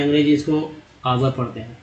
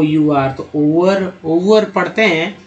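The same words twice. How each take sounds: First: आवर said softly as the right English reading; correct reading. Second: ओवर said slowly as the wrong reading. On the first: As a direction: give the correct आवर, not ओवर. (सही उच्चारण आवर) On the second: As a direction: spell out and read ओवर as the mistake. (गलत उच्चारण ओवर) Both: Shown as a demonstration. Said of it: "अंग्रेज तो भाई ओवर नहीं".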